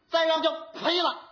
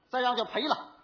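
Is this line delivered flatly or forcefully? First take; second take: forcefully; flatly. First: It is said forcefully, with more feeling. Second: It is said flatly, without real feeling. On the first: The speaker calls it right. "得使这么大劲呢" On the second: The speaker calls it wrong. "词儿倒是对 感情不对"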